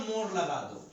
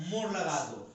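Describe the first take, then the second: No difference in how they are said.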